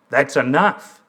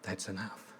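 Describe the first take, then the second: First: Firm, louder retold demand; bolder. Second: Put-on very soft, low child's quote, almost inaudible. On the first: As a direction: speak up boldly to cut it off. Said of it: "he said more boldly". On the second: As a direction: say it small and quiet, barely voiced. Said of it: "in a soft voice".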